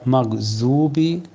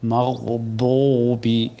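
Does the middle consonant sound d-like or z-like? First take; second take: z-like; d-like. First: The middle consonant is a heavy z-like sound. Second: The middle consonant is a heavy d-like sound. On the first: The speaker calls it wrong. "জিব্বার আগা থেকে উচ্চারণ করা হয় জু, সেটা বদ নয়" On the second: The speaker calls it right. "আমি জিব্বার বাম কিনারা থেকে উচ্চারণ করলাম"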